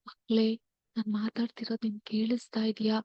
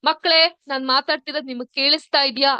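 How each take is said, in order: First: It is spoken in a very soft voice. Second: It is spoken in a louder, more varied voice. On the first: "ತುಂಬಾ ಮೆದುವಾದ ಧ್ವನಿಯಲ್ಲಿ ಮಾತಾಡಿದಾಗ ಹೀಗೆ" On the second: "ಸ್ವಲ್ಪ ಏರಿಳಿತದ ಧ್ವನಿಯಲ್ಲಿ ಮಾತಾಡಿದಾಗ ಹೀಗೆ"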